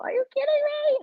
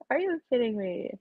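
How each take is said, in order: First: High, shrill disbelief; incredulous. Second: Said in the usual way. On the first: Real, not acted. Reacting to news, shrill incredulous squeal. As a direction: squeal it in outrage.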